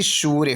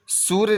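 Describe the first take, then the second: First: सूर्य with a stretched oo; long oo. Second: सूर्य with a brief su; short u. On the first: Teacher correcting the spelling, सूर्य with long oo. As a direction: hold the first vowel of सूर्य. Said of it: "होना चाहिए". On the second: Teacher showing the error, सूर्य with short u. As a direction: clip the vowel in सूर्य. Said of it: "नहीं बल्कि". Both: Shown as a demonstration.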